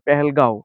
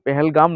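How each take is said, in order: First: The name ends with a nasal vowel sound. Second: The name ends with a closed m sound. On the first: The speaker calls it right. "এটা হবে পেহেলগাঁও" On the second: The speaker calls it wrong. "পেহেলগাম নয়"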